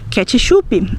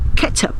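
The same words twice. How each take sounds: First: It is pronounced with Brazilian Portuguese sounds. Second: It is pronounced with English sounds. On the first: "Nós também vamos dizer ketchup" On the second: "em vez de dizer ketchup"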